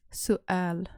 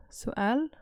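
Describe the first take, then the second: First: سؤال with a small break at the glottal stop; pause at the apostrophe. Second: سؤال rising at the end; rising question tune. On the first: Teacher showing the glottal pause in سؤال. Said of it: "take a little pause there where the apostrophe is". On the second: Teacher showing the rise on سؤال to students. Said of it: "raise your intonation". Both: Shown as a demonstration.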